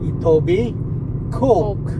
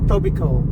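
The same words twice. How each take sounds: First: It is sounded out as it is spelled. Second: It is said the way locals say it. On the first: "makita mo yung spelling niya" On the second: "Pag ipopronounce mo siya"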